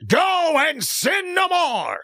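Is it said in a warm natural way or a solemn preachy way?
solemn preachy. It is said in a solemn, preachy way.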